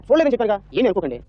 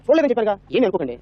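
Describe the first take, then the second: No difference in how they are said.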